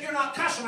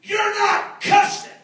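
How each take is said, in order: First: Soft, matter-of-fact replay; toned-down quote; subdued repeat. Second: High, slow, incredulous statement; drawn-out amazement, acted out; astonished. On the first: Retold or imitated. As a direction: say it quietly, almost to yourself. Quiet repeat of the line. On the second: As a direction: spell it out in disbelief. Young man's astonishment, retold.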